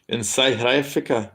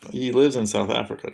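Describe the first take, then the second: First: South African accent, "South" said like "scythe"; South African accent, "Africa" as "aifrica". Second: Said in the usual way. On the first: Shown as a demonstration. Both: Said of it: "Is that a good South, South African accent?".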